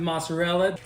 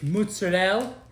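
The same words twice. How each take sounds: First: It is said with a plain American English pronunciation. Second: It is said with an Italian-style pronunciation. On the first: The speaker calls it wrong. "Don't pronounce it mozzarella" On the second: The speaker calls it right. "It's mozzarella"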